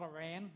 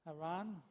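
First: Iran is said with the usual English pronunciation. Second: Iran is said with the native pronunciation. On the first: The speaker calls it wrong. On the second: The speaker calls it right.

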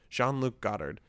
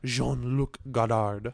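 First: It is said with a plain English accent. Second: It is said with a French accent.

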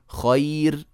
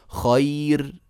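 No difference in how they are said.

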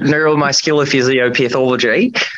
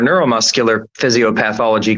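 First: It is said with a slight Australian accent. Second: It is said in the speaker's usual accent.

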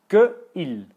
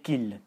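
First: The two words are said separately, two syllables. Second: The two words merge into one syllable.

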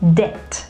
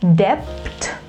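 First: No b sound is pronounced before the t. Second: A b sound is pronounced before the t. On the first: The speaker calls it right. "but it is debt" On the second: The speaker calls it wrong. "It is not debt"

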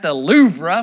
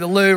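First: Louvre is said with a Southern US pronunciation. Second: Louvre is said with a French-like pronunciation. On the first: The speaker calls it wrong. "if you're from the southern part of the U.S., we might pronounce that the Louvre" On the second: The speaker calls it right. "but it's really the Louvre"

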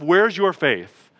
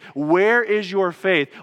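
First: It is said harshly, as a rebuke. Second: It is said gently, as a real question.

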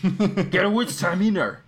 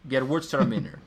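First: It is said in an angry way. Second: It is said in a calm, plain way.

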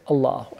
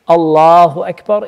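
First: It is said quietly. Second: It is said loudly.

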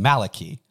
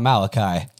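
First: The name is said with an Irish pronunciation. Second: The name is said with a non-Irish pronunciation. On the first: The speaker calls it right. "my favorite Irish pronunciation" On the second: The speaker calls it wrong. "It's not Malachi"

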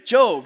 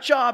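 First: It sounds different from the everyday word job. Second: It sounds like the everyday word job. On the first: The speaker calls it right. "So you want a job, you don't go to Job" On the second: The speaker calls it wrong. "Not Job"

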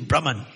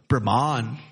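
First: The word gets its original Sanskrit pronunciation. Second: The word gets a common, anglicized group pronunciation. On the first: The speaker calls it right. "but it's actually Brahman" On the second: The speaker calls it wrong. "Or as we say in ISKCON"

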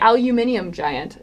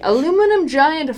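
First: The first word has five syllables. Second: The first word has four syllables.

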